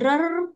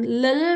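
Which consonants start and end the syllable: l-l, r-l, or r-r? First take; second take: r-r; l-l. First: The syllable starts and ends with an r sound. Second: The syllable starts and ends with an l sound. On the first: "bukan rer" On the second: "bukan lel"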